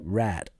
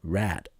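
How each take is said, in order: First: The word ends in a light D sound. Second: The same.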